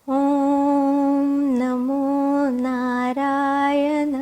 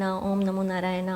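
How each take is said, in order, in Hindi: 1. यह धीरे और साफ़ उच्चारण से बोला गया है। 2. यह जल्दी-जल्दी और बिना सोचे बोला गया है। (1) "देन से इट प्रॉपरली।" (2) "सिर्फ नाम के लिए नहीं, जैसे बोल दिया"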